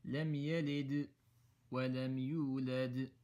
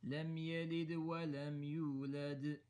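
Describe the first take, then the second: First: "لم يلد" then a stop, "ولم يولد" with big qalqala echoes; stopping with qalqala. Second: "لم يلد ولم يولد" in one breath, first dal bounce small; joined together. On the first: Teacher demonstrating the first option of stopping. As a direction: pause between the words and bounce each dal clearly. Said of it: "You can either stop". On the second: Teacher demonstrating the second, connected option. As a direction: run the words together with a lighter inner qalqala. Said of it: "say it all together". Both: Shown as a demonstration.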